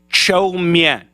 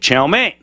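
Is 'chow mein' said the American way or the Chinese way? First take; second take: Chinese; American. First: It is said with a Chinese-like pronunciation. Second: It is said with an American English pronunciation. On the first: "in Chinese, it's something like chow mein" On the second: "Americans who have never heard the Chinese pronunciation would say chow mein"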